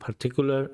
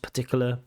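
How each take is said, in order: First: The unstressed vowels are pronounced fully. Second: The unstressed vowels are reduced to schwa. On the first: The speaker calls it wrong. "I can hear the particular, like particular" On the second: The speaker calls it right. "I really want to hear those schwas"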